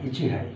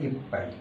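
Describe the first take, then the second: First: Two separate words with an h sound. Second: One merged word with a doubled p sound. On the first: The speaker calls it wrong. "ইচি যোগ হাই" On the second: The speaker calls it right. "কিন্তু উচ্চারণটা হবে ইপাই"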